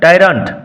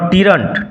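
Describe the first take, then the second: First: The first vowel sounds like 'eye'. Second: The first vowel sounds like a short 'ee'. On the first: The speaker calls it right. "উচ্চারণ লক্ষ্য করো" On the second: The speaker calls it wrong. "Not টিরান্ট"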